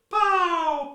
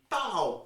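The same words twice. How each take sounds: First: It is said at a higher pitch. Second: It is said at a lower pitch.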